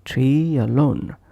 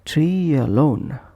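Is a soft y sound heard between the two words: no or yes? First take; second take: yes; yes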